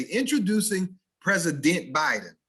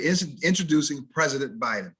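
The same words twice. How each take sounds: First: High announcer intro, PRESIDENT as PREZ-i-DENT; overstressed syllables. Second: PRESIDENT as PREZ-i-dnt in an introduction; unstressed ending. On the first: Mock announcer introducing Biden the wrong way, overstressed. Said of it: "You will never hear them say". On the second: Announcer introducing Biden the correct way, unstressed ending. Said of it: "They'll say". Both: Shown as a demonstration.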